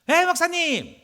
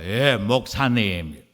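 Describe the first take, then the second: First: The voice is light and casual. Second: The voice is deep and forced from the throat. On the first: He is speaking as an ordinary friend. "그전에는 목소리가 이랬습니다" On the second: He now acts as if he has become important. "청빙 받고 난 데 목소리가"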